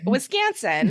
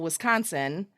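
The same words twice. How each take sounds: First: It is said in a local Wisconsin way. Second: It is said in a general American way. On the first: "is actually pronounced Wisconsin here in Wisconsin" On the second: "as a normal person would pronounce it"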